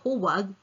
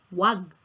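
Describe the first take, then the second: First: The word is said in full with two syllables. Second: The first syllable is dropped, leaving one syllable. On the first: "instead of saying huwag" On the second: "dropping the first syllable hu"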